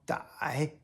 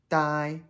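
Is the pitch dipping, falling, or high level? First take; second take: dipping; high level. First: The pitch dips low and rises again. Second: The pitch stays high and level. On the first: "third tone" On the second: "first tone"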